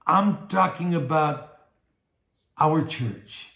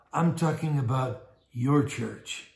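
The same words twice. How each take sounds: First: Slow, spaced out, pause before "our church"; stress on our. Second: Slow, deliberate weight on "your church"; stress on your. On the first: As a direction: set "our church" apart after a deliberate pause. Contrasts our church with your church. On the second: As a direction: turn it on the listeners with "your". Contrasts your church with our church. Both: Real, not acted.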